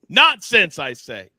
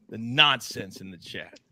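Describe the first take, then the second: First: Mock-pompous nonsense. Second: Said in the usual way. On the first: Real, not acted. Host scolding the chat in mock-pompous tone. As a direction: declare Nonsense like a stuffy lord.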